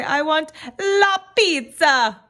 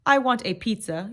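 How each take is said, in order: First: Big, drawn-out Italian accent, high and loud; hammed-up Italian accent with stretched vowels. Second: Said in the usual way. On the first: Shown as a demonstration. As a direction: belt it out like an exuberant Italian. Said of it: "in your best Italian accent". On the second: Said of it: "instead of saying".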